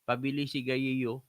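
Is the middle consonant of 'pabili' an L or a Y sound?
L. Pabili is said with a clear L sound.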